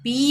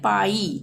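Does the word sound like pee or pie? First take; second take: pee; pie. First: The vowel is a long 'ee' sound. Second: The vowel is an 'eye' sound. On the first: The speaker calls it wrong. "पी नहीं पढ़ेंगे" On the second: The speaker calls it right. "इसको हम पढ़ेंगे पाई"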